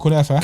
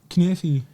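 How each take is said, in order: First: It is said in three syllables, ending in ah. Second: It is said in two syllables, ending in ee. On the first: This is how the speaker's own people say it. "we call it kunafa" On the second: This is how Lebanese people say it. "they say it completely different to mine"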